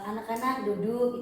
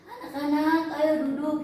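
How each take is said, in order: First: It is said at a normal, softer volume. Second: It is said louder, with a raised voice.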